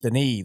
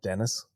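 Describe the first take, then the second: First: The name is said the French way. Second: The name is said like English Dennis. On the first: The speaker calls it right. "that's right" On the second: The speaker calls it wrong. "not Dennis"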